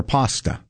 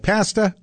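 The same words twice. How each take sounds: First: Pasta with an open "ah" in the first syllable; pasta, first vowel as in "father"; broad-a pronunciation. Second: Pasta with the flat "a" of "cat"; pasta, first syllable like "pass"; short-a pronunciation. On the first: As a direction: say pasta as "PAH-stuh". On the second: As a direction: say pasta so the first vowel rhymes with "past" in North American English. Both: Shown as a demonstration. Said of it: "is it pasta or pasta".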